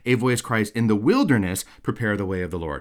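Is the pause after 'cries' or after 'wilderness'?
after wilderness. The break comes after 'wilderness'.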